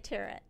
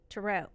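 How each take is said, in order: First: It is said to rhyme with parrot. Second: It is said not rhyming with parrot. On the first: This is the version people get laughed at for. "Like parrot. If there were two R's, then I might say tarot" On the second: This is the speaker's own everyday version. "I say tarot"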